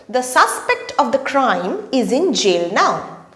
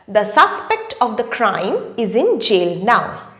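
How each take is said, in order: Both takes have the same delivery.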